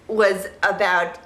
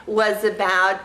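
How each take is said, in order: Both takes have the same delivery.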